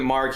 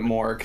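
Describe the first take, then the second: First: The vowel is an open 'ah' sound. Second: The vowel is a rounded 'or' sound. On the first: This is one person's way of saying the name. "Nico pronounces it Mark" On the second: This is how the name's owner says it. "He pronounces it Mork"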